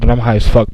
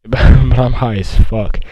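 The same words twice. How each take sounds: First: Said in the usual way. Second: Slow, drawn-out repeat after a laugh; amused emphasis. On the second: Real, not acted.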